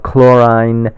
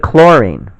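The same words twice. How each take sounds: First: The ending sounds like the one in chloride. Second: The ending does not sound like chloride. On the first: The speaker calls it wrong. "We don't say bromine or chlorine because that would be confusing because it sounds similar to chloride" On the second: The speaker calls it right. "we say chlorine"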